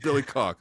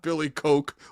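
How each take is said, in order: First: The surname has a short 'o' vowel. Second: The surname has a long 'oh' vowel. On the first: The speaker calls it right. "It's Billy Cock" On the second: The speaker calls it wrong. "It's not Billy Coke"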